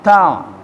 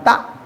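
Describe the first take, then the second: First: The sound flows on without being cut off. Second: The sound stops abruptly, cut off short. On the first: The speaker calls it right. "tapi ada ngalir" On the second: The speaker calls it wrong. "bukan tak"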